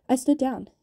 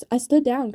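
First: Higher, louder pleading cry; repeated cry. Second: Pained cry, voice jumping up loud. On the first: Gil repeats his plea to Kaz, higher and louder. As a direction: shout it again, desperate. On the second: Gil in pain cries out to Kaz, raised and loud. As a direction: yelp it out through the pain of a shattered wrist. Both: A narrator's reading. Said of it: "cried Gilles".

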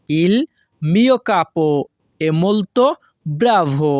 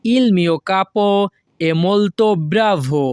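First: "Il" "mio capo" "è molto" "bravo" said as separate chunks with pauses; chunked teacher reading; broken into pieces. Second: Slow, careful Italian model reading; teacher pacing it out; slow model sentence. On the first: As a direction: break the phrase into chunks, pause between each. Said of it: "এখানে যদি আমরা ভেঙে ভেঙে বলি". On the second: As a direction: spell it out slowly for the class. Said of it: "এর Italian ভাষা হবে". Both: Shown as a demonstration.

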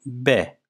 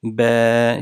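First: "B" as one short beat; short vowel. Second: "B" drawn out over two beats; lengthened vowel. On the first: Teacher showing learners a one-hareke vowel, short "B". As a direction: say "B" briefly, without stretching the vowel. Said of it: "sadece bir hareke kadar uzatabiliriz". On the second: Teacher showing learners a two-hareke stretch, long held "B". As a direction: hold the vowel of "B" long and level. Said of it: "iki hareke miktarı kadar uzatıyorduk". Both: Shown as a demonstration.

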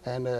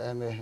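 Both takes have the same delivery.

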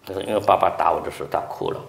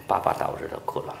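First: Said in the usual way. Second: Softer, faster whispered repeat; hushed repeat of the boy's answer. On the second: Shown as a demonstration. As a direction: let it sink in under the breath.

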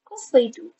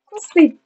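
First: Said in the usual way. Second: High, loud outburst; exasperated. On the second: Real, not acted. Vlogger sure that viewers hate them, exasperated outburst. Reacting to being hated.

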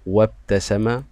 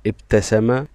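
First: "وابتسم" joined as wabtasama; silent alif. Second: "ابتسم" said alone, opening on an i vowel; initial alif sounded. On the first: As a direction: glide from wa straight into b in "وابتسم". (نطق «وابتسم» موصولة دون ألف) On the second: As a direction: start "ابتسم" as ibtasama. (نطق «ابتسم» منفردة بألف منطوقة في أولها) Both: Shown as a demonstration. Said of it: "الألف لا تظهر معي في النطق".

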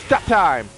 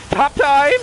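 First: Said in the usual way. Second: "Stop time" higher, rising at the end; questioning command. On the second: Real, not acted. Command fails, tries it questioningly.

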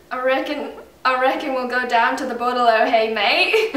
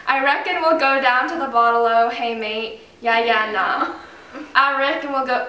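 First: A lightly put-on Australian accent. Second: Put-on Aussie phrase slipping into an American Southern accent; attempting Australian but it comes out Southern. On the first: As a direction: try the Aussie phrase in an Australian accent. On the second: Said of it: "oh no, that's Southern".

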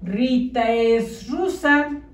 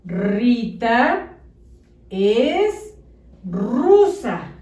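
First: "Rita es rusa" as one unbroken chunk; words run together. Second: "Rita" pause "es" pause "rusa", each word set apart; spaced words. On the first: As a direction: read without gaps between words. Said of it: "Te leo lo que dice junto". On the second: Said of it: "Debe de decir". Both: Shown as a demonstration.

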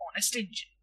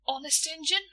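First: Said in the usual way. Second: High, eager rising Honest Injun; eager question. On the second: Acted. Boy checking shopkeeper's promise, eager rising question. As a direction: jump on the promise, pitched up.

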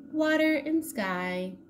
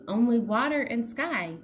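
First: Slow, higher, drawn-out echo; slow dreamy echo. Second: Said in the usual way. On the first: A narrator's reading. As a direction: let it drift out slowly.

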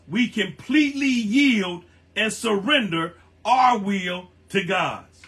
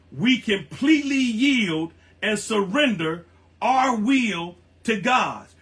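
No difference in how they are said.

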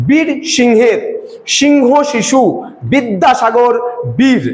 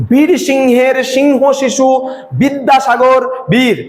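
First: বীর and Singh struck like a drumstick on a dhak; drum-beat stress. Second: বীর hit hard at each foot start, slow; teacher stresses the opening বীর and বি of each foot; stress on first syllable. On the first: Teacher to students, drumming the opening syllables. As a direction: punch the first syllable of each foot, বীর. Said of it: "উপরে কাঠি মারলে একটা আওয়াজ হয়". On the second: Teacher to students, beating each foot's first syllable like a drum. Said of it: "বি এর উপরে একটা জোর পড়ছে". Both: Shown as a demonstration.

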